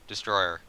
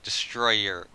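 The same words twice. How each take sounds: First: The word is said quickly and slightly fumbled. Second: The word is said at a normal, careful pace. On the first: The speaker calls it wrong. "when I say it fast" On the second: The speaker calls it right. "when I say it like that, it's normal"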